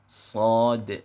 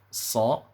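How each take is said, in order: First: The word ends in a d with a bouncing echo. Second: The word ends on a vowel, with no d. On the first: The speaker calls it right. "yang betul pengucapannya adalah huruf shad" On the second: The speaker calls it wrong. "ada yang baca huruf sa"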